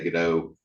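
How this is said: The name is said with an English pronunciation. "I usually say"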